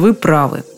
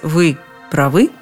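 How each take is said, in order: First: The stress is on the first syllable. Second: The stress is on the second syllable. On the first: The speaker calls it right. "скажи, как полагается" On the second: The speaker calls it wrong. "это точно неправильно"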